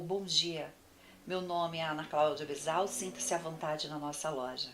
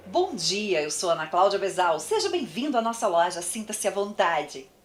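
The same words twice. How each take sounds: First: Softer, listless shop greeting; soft flat greeting. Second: Brighter, engaged shop welcome; friendly welcome. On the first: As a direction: welcome them without energy. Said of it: "É uma coisa". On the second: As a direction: greet the customer with real interest. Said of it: "É outra coisa". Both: Shown as a demonstration.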